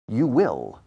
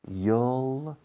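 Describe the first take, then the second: First: It is said in full as two syllables. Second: It is contracted into a single syllable. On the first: "Eso es la contracción de you will" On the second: "Contracción, you'll"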